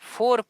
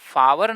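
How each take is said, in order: First: The vowel is a single long 'or'. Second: The vowel glides like 'ow-er'. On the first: The speaker calls it right. "फोर पढ़ा जाता है" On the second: The speaker calls it wrong. "अब इसे फावर ना पढ़ के"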